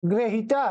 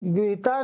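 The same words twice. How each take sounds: First: ग्रहिता with gra at the start, three syllables; correct pronunciation. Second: गृहीता with gri at the start; wrong pronunciation. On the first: Teacher corrects pupils' form, ग्रहिता said as gra-hi-ta. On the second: Teacher rejects this form for pupils, गृहीता said with gri. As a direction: say the first syllable of गृहीता as gri. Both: Shown as a demonstration. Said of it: "गृहीता नहीं है".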